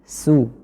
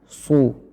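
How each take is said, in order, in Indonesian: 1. Bunyi s tipis dan ringan. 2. Bunyi s tebal dan berat. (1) "Jadi rusu, su" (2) "bukan su"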